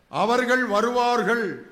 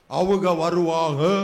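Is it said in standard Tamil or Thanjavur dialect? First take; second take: standard; Thanjavur. First: It is said in standard Tamil form. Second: It is said in Thanjavur dialect form.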